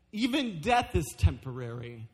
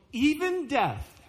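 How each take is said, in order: First: Said in the usual way. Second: "even death" drawn out slowly, pitched higher; slow high emphasis. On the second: Acted. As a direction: linger on "even death" to drive it home. Pastor stretches the phrase.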